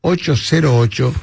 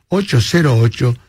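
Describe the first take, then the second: No difference in how they are said.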